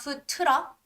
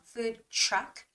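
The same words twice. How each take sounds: First: The word truck begins with a plain T-R sound. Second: The word truck begins with a CH-like sound. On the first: The speaker calls it wrong. "not food truck" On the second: The speaker calls it right. "try to make more similar to like the sound similar to C H"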